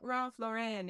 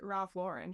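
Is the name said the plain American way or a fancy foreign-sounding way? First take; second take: fancy foreign; plain American. First: The name is given a fancy, foreign-sounding pronunciation. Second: The name is given a plain American pronunciation. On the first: It tries to sound like a high-end designer name. The speaker calls it wrong. "It's not Ralph Lauren" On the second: It treats the name as an ordinary American one. The speaker calls it right. "It's Ralph Lauren. He's an American designer"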